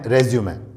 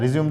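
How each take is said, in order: First: The word ends on an 'ay' vowel sound. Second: The word ends on an 'm' sound. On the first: The speaker calls it right. "इसका सही pronunciation है" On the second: The speaker calls it wrong. "पूरी तरह से इसका pronunciation गलत है"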